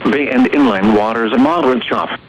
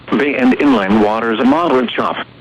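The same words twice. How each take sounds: The two takes are said the same way.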